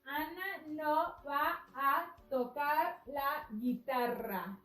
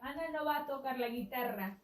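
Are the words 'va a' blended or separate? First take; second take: separate; blended. First: The words are said slowly with 'va a' separate. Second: The words are said fast with 'va a' blended.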